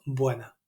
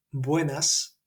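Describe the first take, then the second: First: "buena" with the final S left off; dropped final S. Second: "buenas" with a clear final S sound. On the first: Recalling her Andalusian greeting, final S dropped. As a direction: say "buena", no S at the end. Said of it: "no había pronunciado la S final". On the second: Quoting the standard greeting, S fully pronounced. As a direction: say "buenas" ending on a crisp S. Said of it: "en lugar de decir buenas". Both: Shown as a demonstration.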